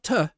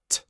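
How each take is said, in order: First: The T is followed by a short vowel. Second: The T is said with no vowel after. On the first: The speaker calls it wrong. "not T with a er sound" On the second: The speaker calls it right. "but T, like this"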